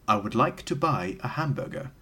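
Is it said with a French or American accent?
American. It is said in an ordinary American accent.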